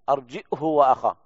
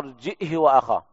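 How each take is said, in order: First: A glottal stop, then h with a short u vowel. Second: A glottal stop, then h with a short i vowel. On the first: "مثل قراءة ابن كثير ولكن بدون إشباع الهاء" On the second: "بالهمزة مع إسكانها وكسر الهاء بدون صلتها"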